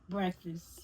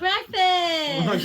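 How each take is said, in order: First: It is said flatly, without enthusiasm. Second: It is said with lively enthusiasm.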